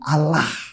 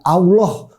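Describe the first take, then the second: First: The word is said a different, non-Muslim way. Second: The word is said the common Muslim way. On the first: It can refer to the God of Christians. "bukan Allah"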